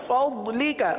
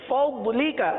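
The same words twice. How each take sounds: The two takes are said the same way.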